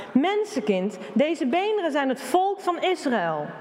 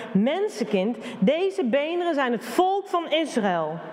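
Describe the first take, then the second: The two takes are said the same way.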